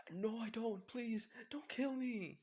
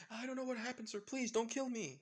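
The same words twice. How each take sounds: First: High, loud, slow begging; terrified pleading. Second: High, loud pleading yell; frightened yelling. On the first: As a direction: drag out the plea in panic. Guy begs not to be killed. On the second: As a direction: beg for your life at the top of your voice. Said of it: "With the guy yelling out". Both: Acted.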